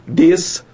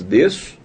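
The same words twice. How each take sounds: First: DESÇO split in two, DESS... SO; wrong pronunciation. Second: DESÇO in one piece, a single S sound; correct pronunciation. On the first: Teacher showing how desço is not said, two separate S sounds. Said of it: "nós não falamos desço". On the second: Teacher showing how desço is really said, one S sound. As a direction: say DESÇO joined up, "DEH-so". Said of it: "nós falamos desço". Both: Shown as a demonstration.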